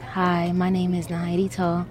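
The greeting sounds flat and robotic. The caller sounds like an automated robocall. The speaker calls it wrong. "So a bad tone is like"

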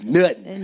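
It is said as AAVE nuttin.

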